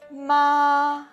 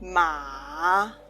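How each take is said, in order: First: The pitch stays high and level. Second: The pitch dips low then rises. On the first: It means mother. "ma means can means the mother" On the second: It means horse. "The third tongue"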